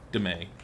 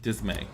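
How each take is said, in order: First: Dismay clipped as təmeɪ; saying dismay again. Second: Dismay said low and dropped; saying dismay. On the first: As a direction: drop the first sound of Dismay. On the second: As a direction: repeat Dismay low and slow. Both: Shown as a demonstration. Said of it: "Much to Isaacs' dismay".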